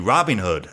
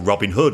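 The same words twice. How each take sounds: First: It has the American stress pattern. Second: It has the British stress pattern. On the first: "they say" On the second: "we say"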